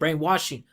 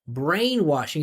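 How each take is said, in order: First: The stress is not placed on brain. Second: The stress is placed on brain. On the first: The speaker calls it wrong. "He said brainwashing" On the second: The speaker calls it right. "he should put the emphasis on brain"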